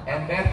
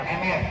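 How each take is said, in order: First: The b sound in the middle is pronounced. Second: The b sound in the middle is dropped.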